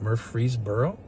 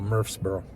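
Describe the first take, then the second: First: Each syllable of the name is said out clearly. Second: The name is squashed into a short burp-like sound. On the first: The speaker is not from the area. The speaker calls it wrong. "I can tell you ain't saying it right" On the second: The speaker is a local. The speaker calls it right. "I thought you just burped in my face"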